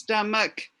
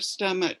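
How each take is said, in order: First: The word ends with a K sound. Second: The word ends with a CH sound. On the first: The speaker calls it right. "you make a K sound" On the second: The speaker calls it wrong. "instead of"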